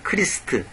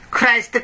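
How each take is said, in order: First: The vowel sounds like 'ee', as in Krist. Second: The vowel sounds like 'eye', as in Kraist. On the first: This is the more accurate form. The speaker calls it right. "정확한 말하면 크리스트" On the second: This is the usual way it is said here. The speaker calls it wrong. "우리 크라이스트"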